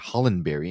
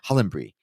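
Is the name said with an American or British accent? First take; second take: American; British. First: The name is said with an American accent. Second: The name is said with a British accent. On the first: The speaker calls it wrong. "I would say Hollenberry in the American" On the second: The speaker calls it right. "you say it so much nicer"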